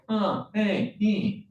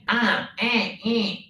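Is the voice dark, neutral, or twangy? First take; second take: neutral; twangy. First: The voice sounds neutral. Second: The voice sounds twangy.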